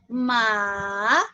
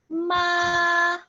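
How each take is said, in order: First: The pitch dips down and then rises. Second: The pitch stays level and flat throughout. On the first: "The third tone is going down and up" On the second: "first tone, ma. It's a flat tone"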